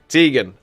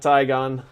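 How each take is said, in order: First: The first syllable does not rhyme with 'tie'. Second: The first syllable rhymes with 'tie'. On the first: The speaker calls it right. "I am [name]" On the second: The speaker calls it wrong. "not Tygon"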